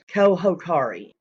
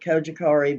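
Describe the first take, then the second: First: The middle consonant is an H sound. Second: The middle consonant is a J sound. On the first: The speaker calls it right. "the correct pronunciation out there, which is Kohokari. the J is pronounced as an H" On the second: The speaker calls it wrong. "we're going to stick with Kojikari because that's what everybody's been saying"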